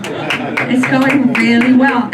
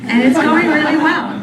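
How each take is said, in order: First: Slow, dragged-out insistence; slow ironic repeat. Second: Said in the usual way. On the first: Shown as a demonstration. Comic repeating the claim slowly to the audience. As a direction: drag it out, unconvinced. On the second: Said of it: "repeated take".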